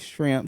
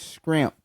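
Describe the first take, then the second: First: The word begins with an sh sound. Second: The word begins with an sk sound. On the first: "She don't say shrimp" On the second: "she says scrimp"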